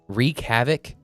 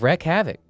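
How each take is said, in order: First: The first word does not sound like 'wreck'. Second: The first word sounds like 'wreck'. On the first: The speaker calls it right. "It's wreak havoc" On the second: The speaker calls it wrong. "I thought it was wreck havoc"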